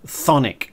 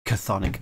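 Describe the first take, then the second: First: The word begins directly with the 'th' sound. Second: An extra consonant is sounded before the 'th'. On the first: The speaker calls it right. "it's not CHTHONIC" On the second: The speaker calls it wrong. "I knew I'd say it wrong eventually"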